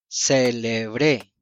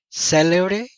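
First: The stress is on the last syllable. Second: The stress is on the first syllable.

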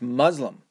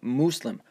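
First: The word has an American-style pronunciation. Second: The word has a foreign-style pronunciation. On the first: It is how people in the United States say the word. The speaker calls it right. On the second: It copies how some others say the word. The speaker calls it wrong. "I hated when she would do that"

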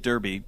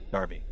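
First: The first syllable sounds like 'dur'. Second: The first syllable sounds like 'dar'. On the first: This is the speaker's own American way of saying it. "I'm pronouncing it Derby because that's how I would have pronounced it" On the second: This is how it is said in the UK. "in the UK, they pronounce Derby, Darby"

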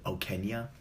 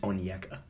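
First: The name begins with the sound 'Ok'. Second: The name begins with the sound 'On'. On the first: The speaker calls it wrong. "I think I was pronouncing it Okenya before" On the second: The speaker calls it right. "I finally learned how to pronounce his name"

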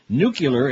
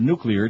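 First: It is pronounced like 'nucular'. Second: It is pronounced like 'nuclear'. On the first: The speaker calls it wrong. "Nuclear instead of nuclear" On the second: The speaker calls it right. "instead of nuclear"

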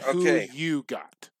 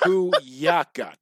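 First: The middle word is said as a full 'you'. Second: The middle word is reduced to a short 'ya'. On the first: The speaker calls it wrong. "not who you got" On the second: The speaker calls it right. "It's who ya got"

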